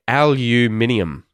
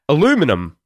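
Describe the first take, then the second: First: The word has five syllables, ending in -nium. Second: The word has four syllables, ending in -num. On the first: This is the Australian pronunciation. "but I would say aluminium" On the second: This is the American pronunciation. "the way the Americans pronounce it"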